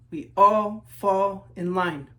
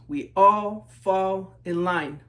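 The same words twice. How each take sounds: The two takes are said the same way.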